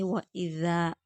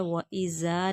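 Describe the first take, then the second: First: वइज़ा with ज़ as a soft th; tongue-tip th for the ज़ in वइज़ा; soft th, no whistle. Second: वइज़ा with a sibilant, whistling z; wrong whistled z. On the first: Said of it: "बगैर सिटी के हैं". (वइज़ा, बिना सीटी का ज़ाल) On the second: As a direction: say the ज़ of वइज़ा as a buzzing z, the mistake. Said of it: "नहीं". (वइज़ा, सीटी वाला ज़) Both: Shown as a demonstration.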